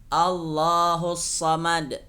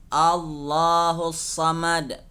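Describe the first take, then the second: No difference in how they are said.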